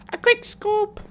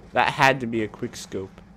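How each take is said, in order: First: "quick scope" squealed very high; squeaky mock echo. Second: Said in the usual way. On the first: Squeaky echo of own phrase.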